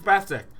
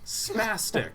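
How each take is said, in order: First: The s sounds are lisped. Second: The s sounds are clear.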